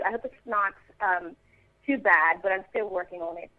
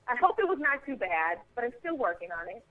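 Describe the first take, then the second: First: Modest attempt at British English; British accent. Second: Said in the usual way. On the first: Shown as a demonstration. Actress demonstrates an accent still in progress, British accent. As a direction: stay in a light British accent. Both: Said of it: "that's that one".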